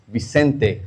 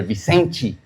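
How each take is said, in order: First: Said in the usual way. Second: Vicente said the Brazilian way, ending in "chee"; Brazilian pronunciation. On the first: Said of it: "or Vicente, Brazilian guy". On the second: Shown as a demonstration. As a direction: say Vicente as "vee-SEN-chee". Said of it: "Brazilian guy".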